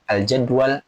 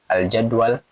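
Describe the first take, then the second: No difference in how they are said.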